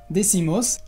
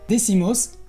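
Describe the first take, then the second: The two takes are said the same way.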